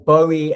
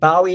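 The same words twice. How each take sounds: First: The first syllable rhymes with go. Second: The first syllable rhymes with cow. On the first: "as in I went for a swim in an oxbow lake" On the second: "as in I bow before the king"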